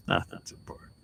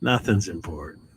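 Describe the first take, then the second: First: Whispered, breathy repeat of "Nothing's important". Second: Said in the usual way. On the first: Shown as a demonstration. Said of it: "whispered repeat". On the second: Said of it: "repeats it in a whisper".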